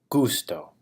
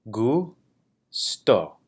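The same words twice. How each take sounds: First: The word is said smoothly at normal speed. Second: The word is split into separate syllables. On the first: "saying the word in Spanish at a normal pace" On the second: "break it down into syllables"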